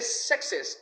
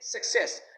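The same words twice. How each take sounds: First: The stress is on the first syllable. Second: The stress is on the second syllable. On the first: The speaker calls it wrong. "Don't say success" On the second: The speaker calls it right. "The second syllable is ses, so it should be stressed"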